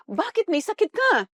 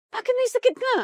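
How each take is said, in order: First: Pointed rhetorical question. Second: Much higher, disbelieving repeat; incredulous. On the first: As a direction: ask it straight at the congregation. Preacher's rhetorical question to congregation. (matanong na tanong sa kongregasyon) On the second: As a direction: ask again as if you can't believe it. Preacher repeats question, incredulous. (gulat na gulat, hindi makapaniwala) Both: Acted.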